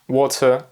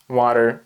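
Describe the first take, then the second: First: It is said with a British O vowel. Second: It is said with an American A vowel. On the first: "Where the Brits say" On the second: "Americans tend to say something like"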